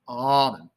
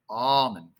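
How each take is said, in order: No difference in how they are said.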